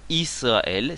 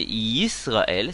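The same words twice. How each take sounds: First: Israël starting on a bare i, drawn out; no y-glide before "Israël"; wrong pronunciation. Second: Yisraël starting with a clear y-glide, slow; yod pronounced. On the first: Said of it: "on fait bien la différence". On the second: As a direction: sound the yod opening "Yisraël". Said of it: "c'est un yod avec un hérik". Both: Shown as a demonstration.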